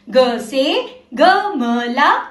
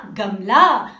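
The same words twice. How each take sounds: First: Slow model. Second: Said in the usual way. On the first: Shown as a demonstration. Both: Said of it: "मेरे साथ साथ आप भी बोलना।".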